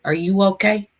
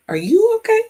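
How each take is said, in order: First: Said in the usual way. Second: "Are you okay?" jumping up into a much higher voice; high squeaky question. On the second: Shown as a demonstration. Checking in on her viewers, high and playful. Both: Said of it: "find out if everybody was okay".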